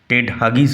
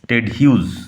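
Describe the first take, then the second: First: The surname sounds like 'Hugis', two syllables. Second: The surname sounds like 'Hughes', one syllable. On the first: The speaker calls it wrong. "Ted হাগিস হবে না" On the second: The speaker calls it right. "উচ্চারণ লক্ষ্য করো"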